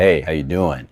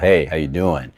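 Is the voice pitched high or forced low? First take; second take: forced low; forced low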